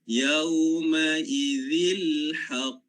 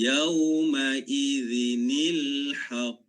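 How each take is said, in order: First: It runs straight from 'idz' into 'il haqq'. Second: An added 'ni' sound links 'idz' to 'il haqq'. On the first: The speaker calls it wrong. "tak boleh baca yauma idzil haqq, tak boleh" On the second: The speaker calls it right. "kita letakkan di belakang selepas huruf zal ini nun"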